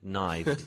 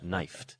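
First: The consonant before the ending is a V sound. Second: The consonant before the ending is an F sound. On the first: The speaker calls it wrong. "you don't get knifed" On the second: The speaker calls it right. "you get knifed"

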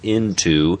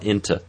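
First: The second syllable has a full oo vowel. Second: The second syllable is reduced to a schwa. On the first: "the dictionary form into. I can use that full goose vowel" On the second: "I can reduce it all the way down to schwa"

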